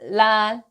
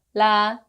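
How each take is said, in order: Both takes have the same delivery.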